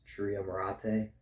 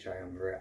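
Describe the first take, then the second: First: It is pronounced in a Latin style. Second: It is pronounced in an English style. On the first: "the proper pronunciation in Latin is" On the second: "but I, I say"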